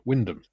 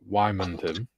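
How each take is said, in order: First: The name is said in a shortened form. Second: The name is said with all its syllables. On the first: This is how locals say it. "In Norfolk, it's pronounced Wyndham" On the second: This is how outsiders say it. "people outside Norfolk pronounce Wymondham as Wymondham"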